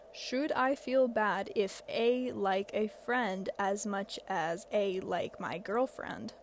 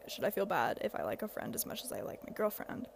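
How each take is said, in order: First: Slow, puzzled word-by-word read; slow literal reading. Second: Said in the usual way. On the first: Shown as a demonstration. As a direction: read the typo exactly as written. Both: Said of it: "I'm assuming this person meant to say".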